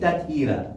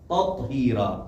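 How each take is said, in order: First: The t sound is thin and light. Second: The t sound is full and heavy. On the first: The speaker calls it wrong. "नहीं तत्हीरा" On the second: The speaker calls it right. "तोई पुर पढ़ना है"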